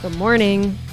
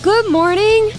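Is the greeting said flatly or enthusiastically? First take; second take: flatly; enthusiastically. First: It is said flatly, without enthusiasm. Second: It is said with enthusiasm and conviction.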